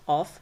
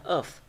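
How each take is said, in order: First: Of said strong, with a full o; full vowel. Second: Of reduced to uv; weakened with schwa. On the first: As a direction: give of its full, unreduced vowel. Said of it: "obscure vowel, this is only reducing". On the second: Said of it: "By using schwa". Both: Shown as a demonstration.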